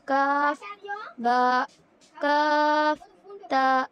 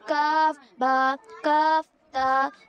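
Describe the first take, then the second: First: The letter names are said slowly and separately. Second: The letter names are run together quickly. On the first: The speaker calls it right. "जल्दी जल्दी नहीं पढ़ना" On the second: The speaker calls it wrong. "इसको हमने ऐसे नहीं पढ़ना"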